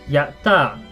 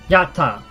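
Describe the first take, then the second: First: The t is held with a brief pause. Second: The t is short with no pause. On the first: "There is that little pause there because of the su" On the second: "and that's different"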